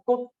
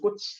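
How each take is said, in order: First: The word ends with an unreleased t sound. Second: The word ends with a released ch sound. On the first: The speaker calls it right. "꽃 이런 식으로 나지" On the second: The speaker calls it wrong. "꽃 이렇게 발음 안 나고"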